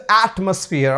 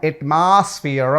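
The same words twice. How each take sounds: First: Atmosphere said as ætməsfiər with a falling end; correct pronunciation. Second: Atmosphere said slowly as ætmasfiər; wrong pronunciation demo. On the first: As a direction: atmosphere modelled the right way. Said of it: "this is atmosphere". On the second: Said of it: "not atmosphere". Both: Shown as a demonstration.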